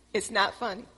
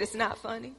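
First: Said in the usual way. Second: Giggling while protesting; can't keep the laugh out of it; half-laughing denial; laughing through it. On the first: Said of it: "I said". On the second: Retold or imitated. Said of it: "we just started laughing".

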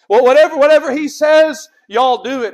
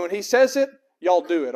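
First: Loud, raised voice of command; forceful preacher's restatement; emphatic command. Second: Said in the usual way. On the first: Acted. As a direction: punch the order out from the pulpit. Repeats Mary's order with force.

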